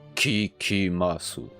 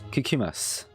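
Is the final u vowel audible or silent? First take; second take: audible; silent. First: The final u vowel is clearly pronounced. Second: The final u vowel is dropped, ending on s. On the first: It is read letter by letter as written. The speaker calls it wrong. "C'est pas kikimasu" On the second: It is how it is said in normal speech. The speaker calls it right. "Alors qu'on écrit sous"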